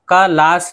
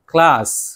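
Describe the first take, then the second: First: An extra vowel separates the k from the l. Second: The k and l are joined directly. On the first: The speaker calls it wrong. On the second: The speaker calls it right.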